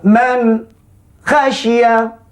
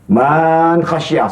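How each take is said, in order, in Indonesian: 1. Ada jeda antara man dan khasyiah. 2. Vokal pada man dipanjangkan. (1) "Berhenti pula" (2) "memanjangkan baris ... Salah kalau orang baca begitu"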